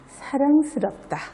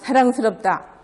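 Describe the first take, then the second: First: It is said softly and tenderly, with deep feeling. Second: It is read out flatly, like reading text. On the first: The speaker truly feels this toward someone. The speaker calls it right. "그윽하게" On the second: The words are just being read off the page. The speaker calls it wrong. "내가 읽는 걸로 사랑스럽다 이러면 되겠어요?"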